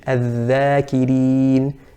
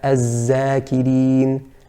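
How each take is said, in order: First: The key consonant is a voiced 'th' sound. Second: The key consonant is a 'z' sound. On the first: The speaker calls it right. "that's the correct pronunciation" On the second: The speaker calls it wrong. "Incorrect would, would be to say"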